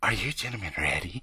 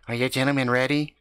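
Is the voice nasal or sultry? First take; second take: sultry; nasal. First: It is said in a sultry, sexy voice. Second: It is said in a nasal, whiny voice.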